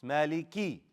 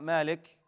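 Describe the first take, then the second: First: "مالكي" with a clearly sounded final "ee"; clear kasra. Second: "مالك" cut off on a bare final k; dropped kasra. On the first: Teacher corrects the common mistake, kasra clearly shown. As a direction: push out the "ee" at the end of "مالكي". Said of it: "Show that كسرة". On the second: Teacher shows what not to say, kasra dropped. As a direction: end "مالك" on the k with no vowel. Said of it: "It's not مالك". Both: Shown as a demonstration.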